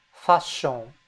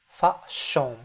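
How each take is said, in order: Both takes have the same delivery.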